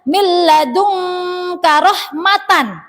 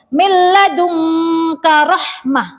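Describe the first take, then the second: First: The final word ends in a tan sound. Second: The final word ends in a silent h. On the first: The speaker calls it wrong. "tidak boleh dibaca" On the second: The speaker calls it right. "Harus dibaca hak sukun"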